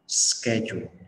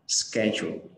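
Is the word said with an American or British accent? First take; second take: American; American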